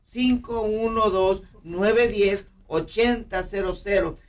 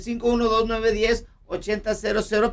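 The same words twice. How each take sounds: First: The number is said slowly. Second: The number is said fast.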